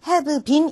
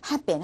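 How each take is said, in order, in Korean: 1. 단어들을 천천히 그리고 또박또박 말해요. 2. 단어들을 빠르게 그리고 줄여서 말해요. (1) "have been 이라고 들릴 거라고 생각하시면 안 되는 거예요" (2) "빨리 지나가고"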